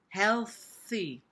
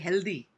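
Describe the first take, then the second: First: The th is a soft voiceless breathy hiss. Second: The th is a hard tongue-tip stop sound. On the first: The speaker calls it right. "it's using the th sound with which is voiceless" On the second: The speaker calls it wrong. "A lot of Indians say healthy. Healthy is taking the th and putting a the, a Hindi sound"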